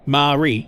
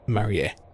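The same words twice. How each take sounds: First: The name is pronounced the English way. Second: The name is said as ma, ri, e. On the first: "that's how you say it uh, in English" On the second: "in Japanese, the syllables are ma, ri, and then e"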